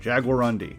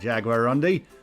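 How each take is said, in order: First: It is said in the speaker's usual accent. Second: It is said in a put-on Australian accent.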